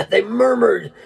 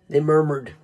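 First: Slower, with a laugh before it; amused repeat. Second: Said in the usual way. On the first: Shown as a demonstration. Preacher repeating to his congregation, amused. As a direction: let a laugh lead into it.

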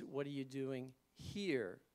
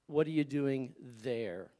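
First: "What are you doing here?" said slowly, leaning on "here"; stress on here. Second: "What are you doing there?" said slowly with a heavy stress on "What". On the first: Preacher contrasts the second sentence for the congregation, slow and leaning on here. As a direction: land on "here" as if standing right beside them. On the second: Preacher gives the first sentence to the congregation, slow and firm. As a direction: press "there" so it sounds far away. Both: Shown as a demonstration. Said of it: "two sentences that there's one letter difference".

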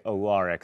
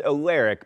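First: "Alaric" as uh-LAR-ik; "Alaric" pronounced uh-LAR-ik, as on television; Vampire Diaries pronunciation. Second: "Alaric" as uh-LAIR-ik; "Alaric" pronounced uh-LAIR-ik, dictionary style; dictionary pronunciation. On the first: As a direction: say "Alaric" with an open LAR in the middle. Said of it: "the vampire diaries say Alaric". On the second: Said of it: "The dictionary says Alaric". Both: Shown as a demonstration.

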